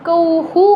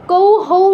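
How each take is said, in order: First: কৌ হু, ending in a short "hu"; visarga as hu. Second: কৌ হৌ, echoing the whole diphthong; wrong hou ending. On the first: Teacher correcting the learners, কৌ হু ending in "hu". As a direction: say কৌ হু with only "u" after the h. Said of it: "উকারটা যুক্ত হবে". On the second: Teacher showing the mistake, কৌ হৌ ending in "hou". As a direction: say কৌ হৌ with the full "ou" after the h. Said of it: "না হয়ে কৌ হু হবে". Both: Shown as a demonstration.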